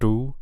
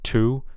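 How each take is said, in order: First: The first consonant has no puff of air. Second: The first consonant has a puff of air. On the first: The speaker calls it wrong. "but I'm kind of hearing do" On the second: The speaker calls it right. "there should be a little puff of air"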